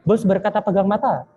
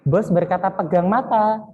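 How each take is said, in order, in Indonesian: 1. Instruksinya diucapkan dengan tempo cepat. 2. Instruksinya diucapkan dengan tempo pelan. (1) "Kita percepat" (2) "Kita pelan-pelan terlebih dahulu"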